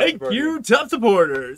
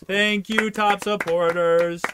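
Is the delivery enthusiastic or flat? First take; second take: enthusiastic; flat. First: It is said with more energy and enthusiasm. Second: It is said with little energy or enthusiasm. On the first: The speaker calls it right. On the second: The speaker calls it wrong.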